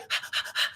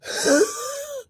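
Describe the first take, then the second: First: A quiet breathy exhale, no strain; light relaxed breath out; soft easy sigh. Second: High strained out-of-breath gasp; exhausted high-pitched pant; winded gasping sigh. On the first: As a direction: sigh out gently, barely audible. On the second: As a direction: gasp like you're spent after thirty seconds of cardio. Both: Shown as a demonstration. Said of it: "that's how I sounded".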